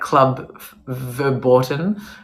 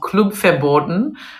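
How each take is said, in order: First: The name is said with an American accent. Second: The name is said without an American accent. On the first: "if you were to pronounce it with an American accent" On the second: "it's called Club Verboten"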